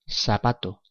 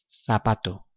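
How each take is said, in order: First: The z is said like English s. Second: The z is said like English th.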